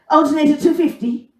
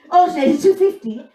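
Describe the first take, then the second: First: Higher, louder gruff Mayo mechanic; thick Mayo accent. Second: Higher, louder gruff Mayo mechanic again; thick Mayo accent repeated. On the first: Mayo mechanic quoting a price in thick accent. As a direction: bark it like a curt country mechanic. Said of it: "it was just like". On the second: Mayo mechanic repeating the price in thick accent. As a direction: repeat it flatly, same curt mechanic. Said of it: "I was like". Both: Retold or imitated.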